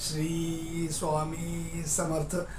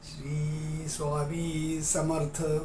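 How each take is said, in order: Both takes have the same delivery.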